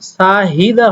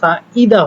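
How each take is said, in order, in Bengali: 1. মাঝখানে h-এর শব্দ উচ্চারিত হয়। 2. মাঝখানের h-এর শব্দ উচ্চারিত হয় না। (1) "হওয়ার কথা ছিল" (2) "হলো"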